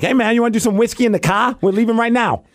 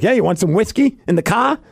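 First: Boston bar dude, raised pitch; light Boston accent impression. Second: Put-on light Boston accent, raised pitch; a hint of a Boston dude. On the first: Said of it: "that's my only Boston impression". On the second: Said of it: "all of a sudden he's from Boston".

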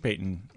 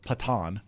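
First: Said in the usual way. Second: Patton said as puh-TAHN; spelling pronunciation. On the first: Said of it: "pronounced as Payton as well". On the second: Shown as a demonstration. Co-host showing how the surname is spelled, Patton as puh-TAHN. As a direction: say Patton with stress on the second syllable, "puh-TAHN". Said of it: "it's spelled Patton".

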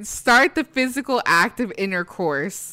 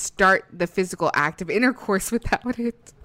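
First: Slow, prim, exaggerated reading; mock formal. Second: Said in the usual way. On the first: Shown as a demonstration. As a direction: savor each word like a prude. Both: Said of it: "The way she said that was so great".

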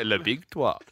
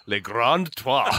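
First: Quick mock French phrase; French accent with a light touch. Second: Slow, grand mock French; French accent. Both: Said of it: "You can always do a French accent".

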